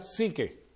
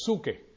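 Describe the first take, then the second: First: The first vowel sounds like 'ee'. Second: The first vowel sounds like 'oo'. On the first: This is how the word is said today. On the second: This is the older, original form of the word.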